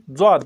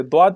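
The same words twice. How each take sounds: First: "ज़्वाद" opening with a buzzed z; z-sound reading. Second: "द्वाद" opening with a d sound; d-sound reading. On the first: Teacher shows the other reading to learners, "ज़्वाद" with z. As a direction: say "ज़्वाद" with z, not d. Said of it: "कुछ लोग इसे ज़्वाद पढ़ते हैं". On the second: Teacher shows how some people read it, "द्वाद" with d. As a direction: say "द्वाद" with d, not z. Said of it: "कुछ लोग इसे द्वाद पढ़ते हैं". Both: Shown as a demonstration.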